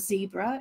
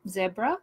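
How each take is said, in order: First: Zebra is said in a North American accent. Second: Zebra is said in a non-North-American accent.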